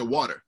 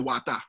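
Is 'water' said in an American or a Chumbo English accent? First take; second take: American; Chumbo. First: The word is said with an American r sound. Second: The word ends in a plain vowel, with no r. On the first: "you talk English like an American" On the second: "the Chumbo people say wata"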